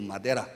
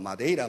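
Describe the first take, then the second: First: The middle vowel is a plain e sound. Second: The middle vowel is an ei diphthong.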